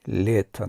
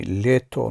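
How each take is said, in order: First: Лето said with final "a", as лета; written genitive form. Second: Лето with a clear final "o"; written nominative form. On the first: Teacher contrasting the genitive ending, clear final "a". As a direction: say лето as "LYE-ta". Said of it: "дар родительный лето навишта мешавад". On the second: Teacher contrasting the nominative spelling, spelling pronunciation. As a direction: say лето as spelt, "LYE-to". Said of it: "лето навишта мешавад". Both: Shown as a demonstration.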